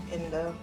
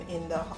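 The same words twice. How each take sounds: The two takes are said the same way.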